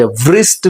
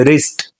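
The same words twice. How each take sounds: First: વ્રિસ્ટ with a v sounded before r; mispronounced W. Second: રિસ્ટ begun on a plain r; silent W. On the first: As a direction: wrongly voice the W, "vrist" for વ્રિસ્ટ. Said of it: "વ્રિસ્ટ નથી". (વ્રિસ્ટમાં 'વ' સાથે ખોટો ઉચ્ચાર) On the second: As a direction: leave out the W, "rist" for રિસ્ટ. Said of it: "ડબલ્યુ silent છે". (રિસ્ટમાં 'વ' silent) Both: Shown as a demonstration.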